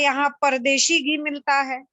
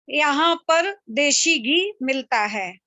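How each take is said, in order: First: 'Pardeshi' is run together as one word. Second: 'Par' and 'deshi' are separate words.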